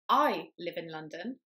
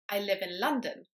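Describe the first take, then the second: First: The stress falls on the word I. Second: The stress falls on the word London. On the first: "I, rather than you, live in London" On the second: "stressing the last word in the sentence"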